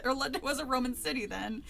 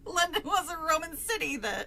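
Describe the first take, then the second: First: Said in the usual way. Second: British accent. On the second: Shown as a demonstration. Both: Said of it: "can't stick to a goddamn British accent".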